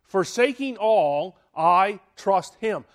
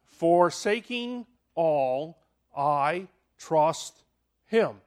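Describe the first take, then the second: First: Forsaking all, I trust him, said louder and firmer; firm, emphatic declaration; emphatic restatement. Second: Slow, measured recital; slow recitation. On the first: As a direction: declare it as a creed. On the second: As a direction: spell out the acrostic slowly. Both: Shown as a demonstration. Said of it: "learned this little acrostic for faith".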